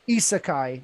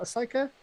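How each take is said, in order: First: The first vowel is an 'ee' sound. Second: The first vowel is not an 'ee' sound. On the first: The speaker calls it right. "There we go" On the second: The speaker calls it wrong. "I'm gonna completely butcher this"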